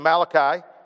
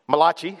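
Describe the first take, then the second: First: The name is said in a plain accent. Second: The name is said in an Italian-style accent.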